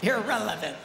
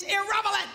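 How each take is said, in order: First: "irrelevant" said correctly, l before v, lower; corrected word. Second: "irrelevant" garbled as "irrevelant"; fumbled word. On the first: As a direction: carefully land "irrelevant" as ir-REL-e-vant after a slip. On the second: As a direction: trip over "irrelevant", swapping the v and l. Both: Real, not acted. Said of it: "That's the word".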